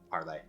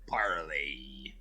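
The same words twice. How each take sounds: First: It is said in a plain, normal voice. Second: It is said in a put-on pirate voice.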